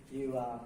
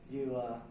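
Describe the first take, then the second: No difference in how they are said.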